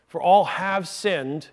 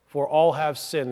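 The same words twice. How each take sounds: First: "For all have sinned" drawn out very slowly, higher and louder, leaning on "all"; slow emphatic quote. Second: Said in the usual way. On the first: Shown as a demonstration. Preacher stressing the verse's continuous sense, slow emphatic. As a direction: weigh every word of "For all have sinned". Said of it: "In the Greek, it's an aorist". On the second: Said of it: "In the Greek, this".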